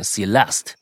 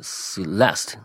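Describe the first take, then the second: First: Celeste重音落在L音节上; stress on the L. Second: 慢慢拼读着Celeste，没把握重音; sounding out Celeste slowly, unsure of the stress; tentative try. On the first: (把Celeste的重音放在L上) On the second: (试探着慢读Celeste) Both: Shown as a demonstration. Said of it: "就是L是重音".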